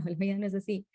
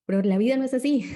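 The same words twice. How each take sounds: First: Said in the usual way. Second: Higher and louder, pressing the word así; emphatic insistence. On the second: Real, not acted. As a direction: hit "Pero la vida no es así" hard and high. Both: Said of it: "hay que entenderlo".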